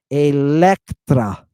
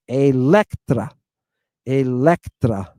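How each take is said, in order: First: Electra, slow, stress on the first e; Greek pronunciation. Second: Slow Electra, stress on the e; Greek pronunciation. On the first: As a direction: Electra wolno, akcent na epsilonie. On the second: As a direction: say Electra slowly, stressing the first e. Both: Shown as a demonstration. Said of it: "Look where the accent is".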